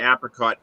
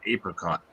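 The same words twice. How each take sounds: First: The first syllable sounds like 'app'. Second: The first syllable sounds like 'ape'. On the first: This is how it is said in the Northeast. The speaker calls it right. "up here in the Northeast, we say apricot" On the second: This is how it is said in the rest of the country. The speaker calls it wrong. "Everybody else around the United States is apricot"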